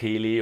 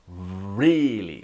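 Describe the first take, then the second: First: The first sound is a non-English R sound. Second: The first sound is an English R sound. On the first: The speaker calls it wrong. "Some languages have different or sound. It's not really" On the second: The speaker calls it right. "It's really, like ra"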